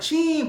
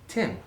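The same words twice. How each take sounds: First: The name is said in a Brazilian accent. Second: The name is said in an American accent. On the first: "Como que eles pronunciam isso?" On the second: "Eu me apresento como Tim. Sou sotaque americano"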